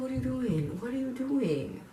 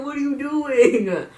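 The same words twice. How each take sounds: First: "What are you doing?" said higher but softer, almost to herself; a soft, stunned higher-pitched question; incredulous murmur. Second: "What are you doing?" shouted high, loud and slow; incredulous yell. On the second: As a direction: belt it out in stunned disbelief, drawn out. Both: Shown as a demonstration. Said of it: "It didn't make it".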